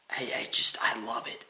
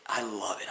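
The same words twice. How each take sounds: First: Breathy whispered admission; whispering. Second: Said in the usual way. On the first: Real, not acted. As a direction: whisper it to yourself. Whispered, then said aloud.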